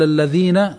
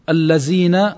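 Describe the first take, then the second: First: The middle consonant is the standard sound. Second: The middle consonant is swapped for another sound. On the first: The speaker calls it right. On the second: The speaker calls it wrong.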